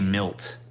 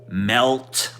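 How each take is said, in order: First: The vowel sounds like the i in 'bit'. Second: The vowel sounds like the e in 'bet'. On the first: "I say milt. Milt is way easier for me to say" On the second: "When I try to say melt"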